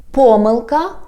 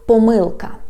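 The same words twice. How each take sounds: First: "Pomyłka" stressed on PO; stress on first syllable. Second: "pomyłka" stressed on MYŁ; middle-stressed "pomyłka", falling; stress on second syllable. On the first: Teacher recapping two ways, "Pomyłka" stressed on PO. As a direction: hit the start of "Pomyłka". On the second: Teacher recapping two ways, "pomyłka" stressed on MYŁ. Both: Shown as a demonstration. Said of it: "pronounce this word in two ways".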